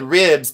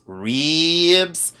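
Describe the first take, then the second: First: Said in the usual way. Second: RIBS drawn way out as "reeeebs"; mock Southern drawl on RIBS, "reeeebs"; ribs with three E's. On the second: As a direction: stretch the vowel in RIBS to a long Southern "ee". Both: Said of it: "it had three E's".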